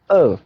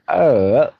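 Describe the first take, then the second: First: The pitch falls sharply from high to low. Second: The pitch dips low, then rises. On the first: "now fourth" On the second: "now third one"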